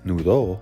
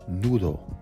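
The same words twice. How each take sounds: First: The stress is on the last syllable. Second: The stress is on the first syllable. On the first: It says a whole different message. The speaker calls it wrong. "with the accent over the O" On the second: It means a knot. The speaker calls it right. "which means knot"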